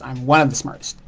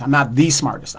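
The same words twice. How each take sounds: First: ONE emphasized against the rest of the phrase; stress on ONE. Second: THE said as an emphatic "thee"; stress on THE. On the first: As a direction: lean on "one" to mean merely among the top. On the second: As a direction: lean on "the" to mean the single top one. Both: Real, not acted. Corrects his claim by contrast.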